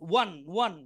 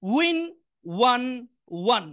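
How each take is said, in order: First: Said in the usual way. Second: one one drawn out, very slow; slow drill. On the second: Shown as a demonstration. Teacher drawing out one slowly for listening students. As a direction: stretch each one for the class. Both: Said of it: "সবাই একটু মনোযোগ দিয়ে শুনবেন".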